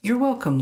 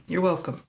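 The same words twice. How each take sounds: First: Bright greeting. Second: Said in the usual way. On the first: Real, not acted. Answering viewer Lynn's thanks, bright lifted greeting. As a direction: pop up brightly on welcome.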